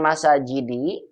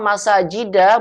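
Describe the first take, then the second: First: The word ends with a short 'i' vowel. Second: The word ends with a short 'a' vowel. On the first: The speaker calls it wrong. "bukan masajidi" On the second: The speaker calls it right. "saya berikannya masajida"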